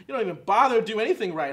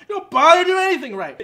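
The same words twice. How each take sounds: First: Said in the usual way. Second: Higher, louder bitter shout; angry outburst. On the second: Acted. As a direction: let the resentment blow up.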